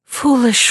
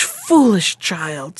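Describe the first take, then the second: First: Said in the usual way. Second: Put-on a slow, drawn-out sorrowing foolish child; a mother's slow distressed scolding. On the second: A narrator's reading. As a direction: stretch out foolish child in dismay. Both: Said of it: "looking quite distressed".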